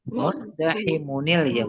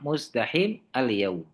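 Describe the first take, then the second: First: An 'un' sound joins the word to 'al-yaum'. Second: The word ends without the 'un' sound. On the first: "harus pakai disambung apa huruf nun lagi ya, karena dia tanwin" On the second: "Tapi kalau mau gampang muzdahim al yaum itu aja"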